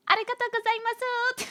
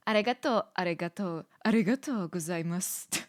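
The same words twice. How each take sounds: First: Squeaky-high, exaggerated thank-you; high-pitched Japanese. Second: Japanese thank-you in a held-down tone; lower tone. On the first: Streamer testing whether Japanese makes her go higher, high-pitched. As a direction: push it way up into a tiny high voice. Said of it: "make you wanna go high pitch". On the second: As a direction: keep the pitch down, feeling it out. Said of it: "a, like, a lower tone". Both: Shown as a demonstration.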